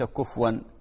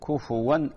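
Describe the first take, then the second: First: The f sound has no u vowel after it. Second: The f sound is followed by a u vowel. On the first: The speaker calls it wrong. "وليس كفوا" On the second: The speaker calls it right. "كفوا أحد بضم الكاف والفاء"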